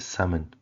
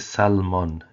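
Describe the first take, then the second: First: The L sound is left silent. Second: The L sound is clearly pronounced. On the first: The speaker calls it right. "you say salmon" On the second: The speaker calls it wrong. "there's an L in there, but you don't say salmon"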